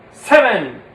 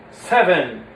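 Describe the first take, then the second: First: SEVEN said loud and falling; punched seven. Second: Said in the usual way. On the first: Shown as a demonstration. Puppeteer drilling the count, a loud falling Seven. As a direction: hit Seven hard, then drop. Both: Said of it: "six, seven".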